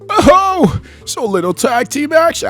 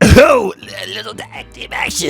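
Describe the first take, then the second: First: It is said in a put-on Roger voice. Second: It is said in the speaker's own voice.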